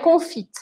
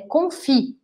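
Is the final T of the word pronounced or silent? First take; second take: pronounced; silent. First: The final T sound is pronounced. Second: The final T sound is silent. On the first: The speaker calls it wrong. "não fala esse T, pelo amor de Deus" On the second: The speaker calls it right. "é confit"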